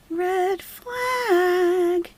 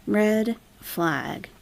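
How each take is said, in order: First: Mock alarmed squeak; high squeaky red flag. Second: Said in the usual way. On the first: Mock alarm at chat comment.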